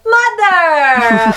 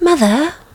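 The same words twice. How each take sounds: First: It is said in a loud, harsh way. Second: It is said in a soft, tender way.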